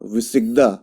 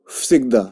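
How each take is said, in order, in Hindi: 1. शब्द voiced v की आवाज़ से शुरू होता है। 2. शब्द voiceless f की आवाज़ से शुरू होता है। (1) "ये क्या है?" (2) "करेक्ट करेक्ट प्रोनाउंसिएशन"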